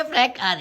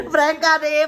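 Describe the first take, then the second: First: Said in the usual way. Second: Higher, louder crow of prank ಆದೆ; gleeful reveal. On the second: Real, not acted. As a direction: announce the prank triumphantly. Revealing the prank.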